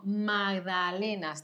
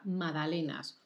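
First: MAGDALENAS slowly, with the written G sounded; spelled-out G. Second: MAGDALENAS with no G sound, as "madalenas"; silent G. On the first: Correcting a listener's word, magdalenas slowly with its G. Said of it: "Se escribe con G". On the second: Teaching learners the word, magdalenas with the G silent. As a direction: drop the G in MAGDALENAS entirely. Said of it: "la G no se pronuncia nunca". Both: Shown as a demonstration.

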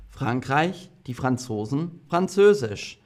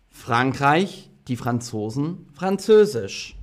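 No difference in how they are said.

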